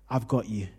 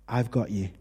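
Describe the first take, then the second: No difference in how they are said.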